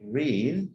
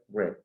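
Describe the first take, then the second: First: It is pronounced as the present-tense form. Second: It is pronounced as the past-tense form. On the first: The action happens now. "se pronuncia en presente read" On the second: The action already happened. "en pasado y en participio se pronuncia read"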